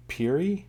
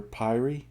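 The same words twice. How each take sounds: First: Piri said PEER-ee, pitched up as a question; first pronunciation guess. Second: Piri said PIE-ree, with a long i; alternative pronunciation guess. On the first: Reader unsure of the author's last name, tentative Piri as PEER-ee. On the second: Reader trying the author's name another way, questioning Piri as PIE-ree. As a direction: say Piri to rhyme with wiry. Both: Shown as a demonstration. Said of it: "I'm mispronouncing your last name".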